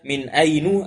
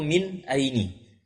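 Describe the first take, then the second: First: The second word ends in a u vowel. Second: The second word ends in an i vowel. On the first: "tidak ada dibaca min ainu" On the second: "atau min aini"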